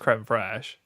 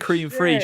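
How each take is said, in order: First: The first word sounds like French 'crème'. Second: The first word sounds like English 'cream'. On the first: The speaker calls it right. "I know it's creme fraiche" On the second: The speaker calls it wrong. "I say cream fraiche like that on purpose"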